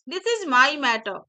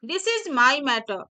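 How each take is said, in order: No difference in how they are said.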